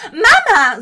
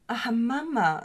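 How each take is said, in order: First: MAMA shot up high and very loud; sudden piercing high MAMA; really high. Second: MAMA with the voice dropping down; a falling, understated MAMA; falling tune. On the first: Retold or imitated. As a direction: imitate a shrill singer blurting MAMA. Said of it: "so richtig hoch". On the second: Shown as a demonstration. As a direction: let MAMA slide downward at the end. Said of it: "so runtergehend mit der Stimme".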